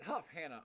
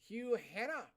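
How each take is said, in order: First: The first part ends with a clear f sound. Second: The first part is said without an f sound. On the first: The speaker calls it right. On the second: The speaker calls it wrong.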